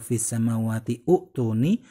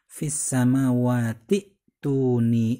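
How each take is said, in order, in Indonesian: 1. Vokal 'u' dibunyikan sebelum 'tuni'. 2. Tidak ada vokal yang dibunyikan sebelum 'tuni'. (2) "sehingga cara bacanya langsung"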